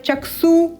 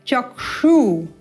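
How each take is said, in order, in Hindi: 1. ksh में sh ध्वनि मूर्धन्य नहीं है। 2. ksh में sh ध्वनि मूर्धन्य है। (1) "ये भी अनुपयुक्त है" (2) "मूर्धा से क्ष उच्चारण करना है"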